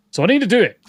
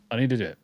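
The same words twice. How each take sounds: First: Louder, higher burst of determination; emphatic resolve. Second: Said in the usual way. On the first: Real, not acted. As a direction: insist on it with a sudden push. Emphatic resolve about practising.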